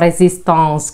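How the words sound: The word is pronounced the French way.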